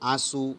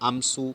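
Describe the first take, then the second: First: The vowel is nasalized with no separate m sound. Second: A full m consonant is pronounced before s. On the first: The speaker calls it right. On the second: The speaker calls it wrong. "આમસુ નથી હોતું"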